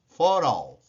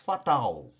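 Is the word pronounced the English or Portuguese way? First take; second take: English; Portuguese. First: It is pronounced with English sounds. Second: It is pronounced with Portuguese sounds. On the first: "Em inglês" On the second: "Em português"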